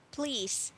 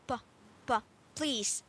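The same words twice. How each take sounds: First: "Please" said cleanly with a crisp "p"; a clear "Please", crisp "p"; model please. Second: "p" repeated and popped before "please"; stress on the p sound. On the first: Teacher giving the clean model of "please". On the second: Teacher drilling the student's "p" in "please". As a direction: tap out the "p" sound, then land on "please". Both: Shown as a demonstration. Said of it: "So it should be p".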